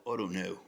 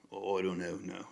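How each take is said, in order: First: Said in the usual way. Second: A weak attempt at a British accent, barely shifted; bad British accent. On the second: YouTuber testing a British accent on viewers, badly faked British accent. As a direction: try a British accent and fall short. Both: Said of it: "I was trying to do a British accent".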